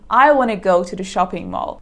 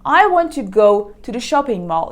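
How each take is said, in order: First: The words run together into a shortened form. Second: Every word is said fully and separately.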